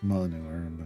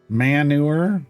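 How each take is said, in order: First: The word is said in its usual way. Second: The word is said in an altered, jokey way. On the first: This is the real pronunciation. The speaker calls it right. "No, but it's not. It's manure" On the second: The word is treated as starting with 'man'. The speaker calls it wrong. "That's what it should be pronounced as"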